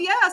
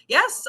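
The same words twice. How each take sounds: First: It is said with a sarcastic tone. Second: It is said with a genuinely interested tone. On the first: The speaker does not really care. The speaker calls it wrong. "like oh yes, like sarcastic" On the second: The speaker truly cares about the news. The speaker calls it right. "Like I'm genuinely interested. Like yes, I heard"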